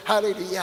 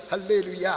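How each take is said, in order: Both takes have the same delivery.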